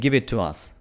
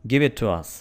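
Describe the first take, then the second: The two takes are said the same way.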